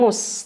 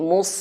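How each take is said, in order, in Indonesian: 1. Konsonan pertama terdengar tipis, seperti s biasa. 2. Konsonan pertama terdengar tebal dan berat. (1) "jangan mus" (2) "tapi mus, tebelin"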